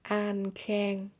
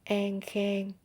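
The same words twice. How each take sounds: First: It is said in a Northern Vietnamese accent. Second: It is said in a Southern Vietnamese accent. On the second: "But in Southern, it will sound like"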